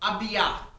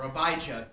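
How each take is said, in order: First: The name is pronounced in a Hebrew way. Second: The name is pronounced in an English way.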